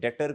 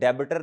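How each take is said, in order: First: The b is silent, giving two syllables. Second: The b is sounded as an extra syllable. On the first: The speaker calls it right. "डेटर कहते हैं। B silent है" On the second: The speaker calls it wrong. "इसे डेबिटर नहीं कहते"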